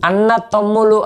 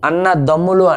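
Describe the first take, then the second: First: The second word starts with a voiceless t. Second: The second word starts with a voiced d. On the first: The speaker calls it wrong. "అనము" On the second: The speaker calls it right. "అంటాం"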